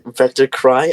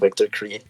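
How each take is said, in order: First: The second word ends with an 'eye' sound. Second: The second word ends with an 'ee' sound. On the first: The speaker calls it right. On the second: The speaker calls it wrong.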